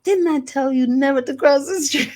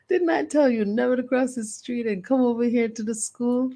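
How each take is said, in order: First: Put-on high, loud scolding child voice; a small girl telling grandma off; mock stern child; scolding little girl. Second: Put-on higher, sing-song child scolding; a little girl lecturing grandma again; lightly voiced child scold. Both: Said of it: "And I was like".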